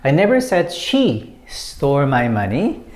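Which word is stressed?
she. The word she carries the main stress. Someone else may have taken the money. "When you put emphasis on she"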